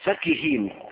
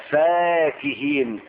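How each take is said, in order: First: The first vowel is short, without lengthening. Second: The first vowel is long, with lengthening. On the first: They were arrogant and insolent. "قراءة لغير مد" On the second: They were enjoying comforts and delights. "قراءة بالمد"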